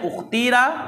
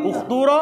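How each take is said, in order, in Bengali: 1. মাঝের স্বরধ্বনিটি একটি সাধারণ 'ee' ধ্বনি। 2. মাঝের স্বরধ্বনিটি একটি দীর্ঘ 'oo' ধ্বনি।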